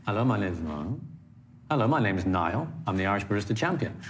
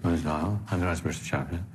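First: Firm, with "Niall" and "Champion" landing solidly at the end; "Irish Barista Champion" said with full weight through "Champion"; weighted key words. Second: Imitating a nervous delivery where "Niall" and "Champion" fade away; last word dropped. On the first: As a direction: give each last important word its weight. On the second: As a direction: let each sentence sag on the final word. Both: Shown as a demonstration. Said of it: "The last important word dropped away".

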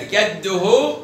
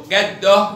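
First: Slow جده as "gadduhu"; damma on haa. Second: Slow جده as "gaddoh"; sukun on haa. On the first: Teacher tests the haa, جده ending in -uhu. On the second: Teacher tests the haa, جده ending in -oh. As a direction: end جده on h. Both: Shown as a demonstration. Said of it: "بالهاء".

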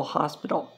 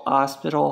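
First: Said in the usual way. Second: "hospital" with a silent h; Spanish pronunciation. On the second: Shown as a demonstration. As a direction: say "hospital" the Spanish way, starting on the vowel. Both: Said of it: "Hospital means hospital".

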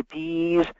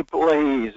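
First: Lightly voiced small child, "Please" without the L; a hint of baby talk on "Please"; toddler's please. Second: Drawn-out "Please" with the L sounded; lightly voiced small child stretching "Please"; child's please. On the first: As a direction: say "Please" like a one-year-old, as "pease". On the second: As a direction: say "Please" as a coaxed child would, long vowel. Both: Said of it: "You learn it when you're one years old".

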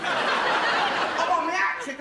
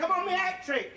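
First: Slow, loud, laughing boast; drawn-out and higher, relishing the words "I'm on my hat trick"; gloating call. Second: Quicker repeat. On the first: Gloating bowler calls it out. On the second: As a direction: toss off "I'm on my hat trick" fast as an afterthought. Repeats the boast. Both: Retold or imitated.

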